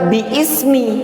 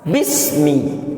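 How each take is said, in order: First: The hamzah vowel is sounded, giving three syllables. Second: The hamzah vowel is dropped, giving two syllables. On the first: The speaker calls it wrong. "Tidak dibaca dengan biismi" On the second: The speaker calls it right. "maka langsung dibaca dengan apa? Bismi"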